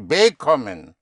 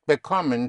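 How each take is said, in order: First: The stress is on the first syllable. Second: The stress is on the second syllable. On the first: The speaker calls it wrong. "I didn't say bekommen" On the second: The speaker calls it right. "but bekommen"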